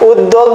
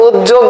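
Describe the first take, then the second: First: উদ্যোগ with a doubled d, ud-dog; d-sound variant. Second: উদ্যোগ with a doubled j, uj-jog; j-sound variant. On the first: Teacher offering the first correct option, doubled d. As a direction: say উদ্যোগ with d, not j. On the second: Teacher offering the other correct option, doubled j. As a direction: say উদ্যোগ with j, not d. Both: Shown as a demonstration. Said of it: "যেটাই বলুক সেটাই সঠিক".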